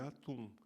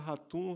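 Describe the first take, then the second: First: The name starts directly with a vowel sound. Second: The name starts with a breathy H sound. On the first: This is how it is said in Manaus and Brasília. The speaker calls it right. "porque em português não existe o H aspirado como em inglês" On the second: This is how people in São Paulo say it. The speaker calls it wrong. "começam a falar ratum"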